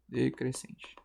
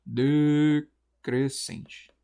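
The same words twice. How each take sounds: First: Said in the usual way. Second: "decrescente" stretched slowly, syllable by syllable; drawn out by syllables. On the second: Shown as a demonstration. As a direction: sound out "de-cres-cente" very slowly. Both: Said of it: "eu identifico que é um ditongo".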